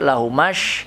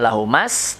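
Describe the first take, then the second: First: It ends with a thick sh sound. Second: It ends with a thin s sound. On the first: The speaker calls it right. "tapi lahumash tebal" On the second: The speaker calls it wrong.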